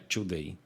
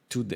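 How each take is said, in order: First: The T is softened in a Brazilian accent. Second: The T is a plain, crisp T. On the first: The speaker calls it wrong. "não é today" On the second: The speaker calls it right. "É today, o T é o T"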